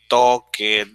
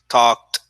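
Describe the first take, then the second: First: The ending is said as an extra syllable. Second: The ending is said as a single t sound. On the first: The speaker calls it wrong. "you don't say" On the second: The speaker calls it right. "the right pronunciation"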